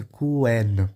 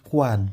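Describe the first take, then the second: First: "quen" as "kuén"; "é" before a sounded n in "quen"; second accepted pronunciation. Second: "quan" as "kuan"; first accepted pronunciation. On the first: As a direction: say "quen" with an open "é" vowel. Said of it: "também aceita a pronúncia". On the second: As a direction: say "quan" with an "a" vowel. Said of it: "ela tem duas pronúncias". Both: Shown as a demonstration.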